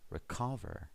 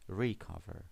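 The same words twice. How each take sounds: First: The stress is on the second syllable. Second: The stress is on the first syllable. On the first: The speaker calls it right. "The stress is on the second syllable this time" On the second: The speaker calls it wrong. "We don't say recover"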